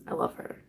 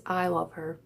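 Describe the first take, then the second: First: Whisper. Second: Said in the usual way. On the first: Real, not acted. Fan gushing about her favourite comedian, whispered. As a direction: whisper it like a confession.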